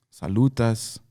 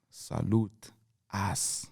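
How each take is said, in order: First: Said in the usual way. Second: "salute" drawn out, a pause, then a quiet "us"; slow, weighty "salute ... us"; slow emphatic reframe. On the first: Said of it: "but salute us". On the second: Shown as a demonstration. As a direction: stretch "salute", hold, drop "us" softly.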